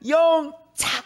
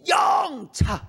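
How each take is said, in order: First: The stress is on the second syllable. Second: The stress is on the first syllable. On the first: "근데 어떤 사람은" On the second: "어떤 사람은 영에서 힘을 주는 거예요"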